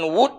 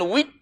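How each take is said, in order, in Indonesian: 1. Vokal setelah w itu u bulat. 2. Vokal setelah w itu i depan. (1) "Dengan wud boleh" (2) "dengan wid pun boleh"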